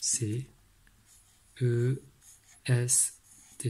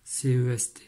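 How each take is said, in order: First: Letters with pauses. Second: Letters run together. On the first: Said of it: "il a levé le crayon". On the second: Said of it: "Écrire efficacement". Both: Shown as a demonstration.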